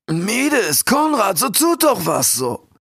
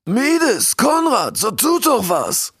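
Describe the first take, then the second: First: High, drawn-out cry, less forceful; the king's plea as if heard from afar; call from far away. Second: High, urgent shout to his subjects; king calling out. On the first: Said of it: "hörte der Kondor seinen König wie aus unendlicher Ferne". (Ruf wie aus weiter Ferne) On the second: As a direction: cry for action with drawn-out final words. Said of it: "rief der König". (aufgeregt rufender König) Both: A narrator's reading.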